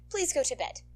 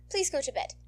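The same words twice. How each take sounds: The two takes are said the same way.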